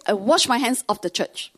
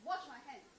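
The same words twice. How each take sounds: First: Said in the usual way. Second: Quiet muttered demo. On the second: Shown as a demonstration. Mom's phrase muttered softly under the breath. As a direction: mutter it softly as if showing the gesture. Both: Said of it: "She really showed me this".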